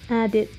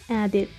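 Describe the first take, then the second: No difference in how they are said.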